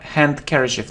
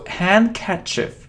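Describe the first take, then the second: First: A d sound is pronounced after the n. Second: No d sound is pronounced after the n. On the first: The speaker calls it wrong. "It isn't ha handkerchief" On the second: The speaker calls it right. "we don't pronounce d"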